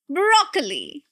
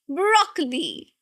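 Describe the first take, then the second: First: The stress is on the first syllable. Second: The same.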